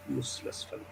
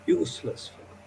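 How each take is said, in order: First: Breathy hushed whisper of contempt; whispered scolding. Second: Said in the usual way. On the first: Retold or imitated. Father whispering his scorn at the top student. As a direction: hiss it under your breath.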